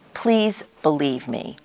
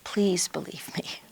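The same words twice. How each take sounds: First: It is said in a demanding, forceful way. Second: It is said in a begging, pleading way.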